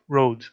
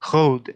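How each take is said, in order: First: It is said with a usual English R. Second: It is said with a French-style throaty R. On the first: "instead of" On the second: "someone from France is speaking English, they might say"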